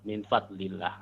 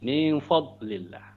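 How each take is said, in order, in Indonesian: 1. Bunyi d punya hentakan lepasan yang memantul tambahan. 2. Bunyi f diucapkan tebal dan berat. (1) "Ada yang dotnya masih kolkolah ya" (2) "dotnya sudah enggak kolkolah tapi fa-nya ikut-ikutan tebal"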